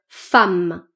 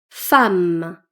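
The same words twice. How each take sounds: Both takes have the same delivery.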